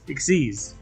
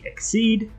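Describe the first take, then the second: First: The term is one word ending in an s. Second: The term is one word without a final s. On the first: The speaker calls it right. "the proper pronunciation is Exceeds" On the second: The speaker calls it wrong. "some saying Exceed"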